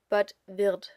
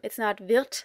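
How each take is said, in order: First: The word ends with a softer D sound. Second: The word ends with a sharp T sound. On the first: The speaker calls it right. "it stays a D" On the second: The speaker calls it wrong. "Normally the ending for S is a T"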